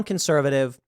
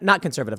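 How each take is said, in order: First: Said in the usual way. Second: Not hit first, conservative falling after it; stress on not. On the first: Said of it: "you're saying you want". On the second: Shown as a demonstration. Host mocking the woman's contradiction, stress on not. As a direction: correct herself by leaning on the word not. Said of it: "not, not, not, not".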